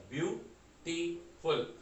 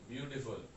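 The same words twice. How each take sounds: First: beautiful slowly split into view, टी, फुल; syllable by syllable. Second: Said in the usual way. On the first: Shown as a demonstration. Teacher counting syllables for students, beautiful in three separated beats. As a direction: stop the voice after each of the three beats in beautiful. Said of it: "इसमें हमारी voice ब्यू पे आके रुक रही है". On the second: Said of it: "अगर इसे हम पढ़ें".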